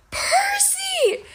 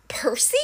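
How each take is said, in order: First: Very high, stretched-out goat-like cry; bleating. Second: Hushed, near-whispered name; quiet, disbelieving query; surprised question. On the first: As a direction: bleat the name in a squeal of joy. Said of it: "Grover bleated". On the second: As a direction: say it softly, as if unsure. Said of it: "Clarice said". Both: A narrator's reading.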